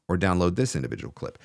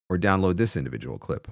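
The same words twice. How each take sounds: The two takes are said the same way.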